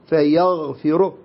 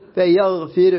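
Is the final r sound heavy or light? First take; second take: heavy; light. First: The final r sound is heavy and full. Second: The final r sound is light and thin. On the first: The speaker calls it right. "هكذا على التفخيم" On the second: The speaker calls it wrong. "لا"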